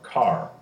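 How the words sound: A clear R sound follows the vowel. "As opposed to our car"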